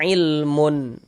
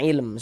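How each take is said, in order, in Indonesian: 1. Kata ini berakhir dengan tambahan -un. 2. Kata ini berakhir pada bunyi m sukun. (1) "Jangan kita baca ilmun baru berhenti" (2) "Tapi kita baca ilm seperti itu"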